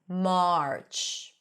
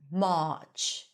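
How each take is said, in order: First: The vowel is followed by an R sound. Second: The vowel is a plain ah with no R. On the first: "instead of" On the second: "non-rhotic dialects, then you would just pronounce an ah sound"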